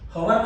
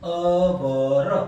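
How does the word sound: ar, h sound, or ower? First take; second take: h sound; ower. First: The word begins with an h sound. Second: The word sounds like ower without h. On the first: "હવર નથી" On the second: "અવર પણ નથી"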